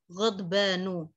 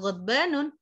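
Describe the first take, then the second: First: The word ends on a vowel, no n. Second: The word ends with an added n sound. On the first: The speaker calls it right. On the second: The speaker calls it wrong.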